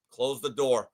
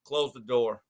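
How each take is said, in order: First: Low, quiet, final order; stern coach repeated. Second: Low, curt order; a lower, quieter stern command; stern coach. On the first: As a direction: say it again lower and flatter. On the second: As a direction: coach ordering the team to leave without him, low and curt. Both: Retold or imitated. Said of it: "And Jimmy goes".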